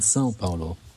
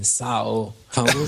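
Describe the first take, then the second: First: It is pronounced softly and forward in the mouth. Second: It is pronounced the German way, more harshly. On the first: The speaker calls it right. "Ganz sanft nach vorne ausgesprochen" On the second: The speaker calls it wrong. "die Deutschen sind dafür bekannt, dass sie Sao Paulo sagen"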